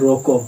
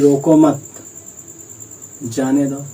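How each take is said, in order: First: A pause comes right after 'roko'. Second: A pause comes right after 'mat'. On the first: Stop him; do not let him go. "थोड़ा ठहराव लिया फिर बोला मत जाने दो" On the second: Do not stop him; let him go. "अगर यहाँ पे ठहराव ले लिया"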